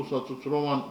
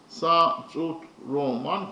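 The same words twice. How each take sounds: First: Said in the usual way. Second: "Sa tut roman" slowly split into syllables; slow, separated beats on "Sa tut roman". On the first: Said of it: "consist of five syllables". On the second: Shown as a demonstration. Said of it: "consists of four syllables".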